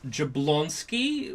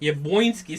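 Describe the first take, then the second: First: The L is said as a plain English L. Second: The L is said like a W sound. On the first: "which is what I would pronounce it out" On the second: "this L in the alphabet that has this thing through it where it's not L anymore. It's like wow"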